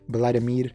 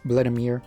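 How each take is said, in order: First: The name is said with Salvadoran Spanish pronunciation. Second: The name is said with English pronunciation. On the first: "the actual like Salvadorian pronunciation" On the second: "is like the English pronunciation"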